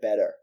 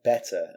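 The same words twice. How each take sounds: First: The T in the middle is soft and flapped. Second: The T in the middle is crisp and clear. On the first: The speaker calls it wrong. "she said better" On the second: The speaker calls it right. "say that one like better, and it'll, you'll sound better"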